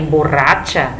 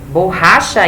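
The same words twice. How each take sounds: First: It is said with a Spanish pronunciation. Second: It is said with a Portuguese pronunciation. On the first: It means drunk. "a pronúncia é um pouco diferente" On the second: It means an eraser. "a pronúncia é um pouco diferente"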